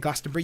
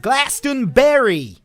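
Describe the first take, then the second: First: It is said in a plain British accent. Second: It is said in an imitated American accent. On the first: "you don't say" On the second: "you go"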